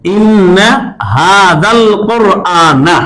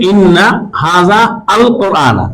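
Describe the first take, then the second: First: The words run together as one joined phrase. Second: The words are split, with a separate 'al'. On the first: "যখন আমরা মিলাই পড়ি এভাবে" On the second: "আলাদা করি"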